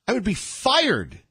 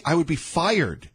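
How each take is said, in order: First: Pitched up, leaning on fired; emphatic repeat. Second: Said level in his usual voice, no push; retold quote spoken straight; plain retelling. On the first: Retold or imitated. Radio host repeating Christie's words with emphasis. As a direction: hit fired harder the second time. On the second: Radio host quoting Christie plainly.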